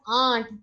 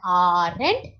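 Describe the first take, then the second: First: It sounds just like the word aunt. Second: It does not sound like the word aunt. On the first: The speaker calls it right. "but it is aunt" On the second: The speaker calls it wrong. "It is not aren't"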